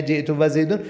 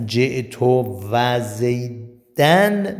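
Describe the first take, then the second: First: زیدون ending -un, marked as wrong; wrong form zaydun. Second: Slow, with زیدن ending -an; correct form zaydan. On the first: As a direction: say زیدون with "-un" as the rejected version. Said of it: "نه". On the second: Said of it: "نه جئت و زیدون". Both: Shown as a demonstration.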